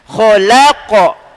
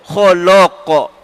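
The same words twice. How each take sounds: First: The 'la' syllable sounds thin and light. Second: The 'la' syllable sounds thick and heavy. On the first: The speaker calls it right. "La tetap infitah dari atas" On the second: The speaker calls it wrong. "Jangan sampai la tu jadi la. ... Jangan"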